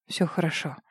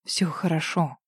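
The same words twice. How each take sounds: First: Тихо, ниже голосом; успокой её ласково; утешая. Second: Тихо, ниже голосом; повтори так же ласково; утешая. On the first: Рик успокаивает её. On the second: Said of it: "повторил он". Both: A narrator's reading. (тихое утешение)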